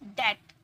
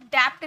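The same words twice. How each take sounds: First: "डेट" with vowel straight into t; silent B. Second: "डेप्थ" with p/b before t; sounded B. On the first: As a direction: lower "डेट", rhyming with get. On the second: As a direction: wrongly say "डेप्थ" as dept. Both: Shown as a demonstration. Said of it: "डेप्थ नहीं बोलना है".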